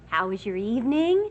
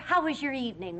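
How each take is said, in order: First: The tone sounds warm and sweet. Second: The tone sounds tense and angry. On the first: "how's this?" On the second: "There's something about your tone"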